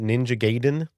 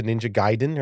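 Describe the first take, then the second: First: Gaiden said as GAY-den; common pronunciation. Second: Gaiden said as GUY-den; closer pronunciation. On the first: Asking viewers how they said it, GAY-den pronunciation. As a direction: say "Gaiden" with a long A, like gate. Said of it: "Do you pronounce it differently?". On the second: Checking the correct title with viewers, GUY-den pronunciation. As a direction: say "Gaiden" with a first syllable like guy. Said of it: "It might be closer to". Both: Shown as a demonstration.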